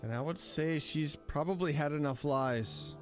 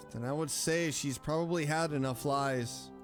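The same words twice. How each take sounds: The two takes are said the same way.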